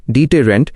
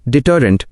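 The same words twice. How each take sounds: First: deterrent sounded out as dee-tay-rent, with full vowels; pronunciation model. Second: Said in the usual way. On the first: Shown as a demonstration. Guide showing learners how to say the word, deterrent sounded out as dee-tay-rent. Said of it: "इन शब्दों को बिल्कुल सही बोलें". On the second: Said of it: "उच्चारण मार्गदर्शिका".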